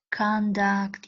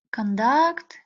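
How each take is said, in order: First: Conduct stressed on the first syllable, CON-duct; noun stress. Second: Conduct stressed on the second syllable, con-DUCT; verb stress. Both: Shown as a demonstration. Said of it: "stress interchange".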